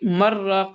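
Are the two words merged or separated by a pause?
merged. The n merges into the r without pause. The speaker calls it wrong. "यहाँ पे मर्राक़ नहीं कर सकते"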